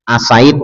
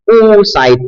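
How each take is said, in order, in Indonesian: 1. Kata ini diawali dengan vokal selain 'oo'. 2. Kata ini diawali dengan vokal 'oo' (u). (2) "hamzahnya didomah"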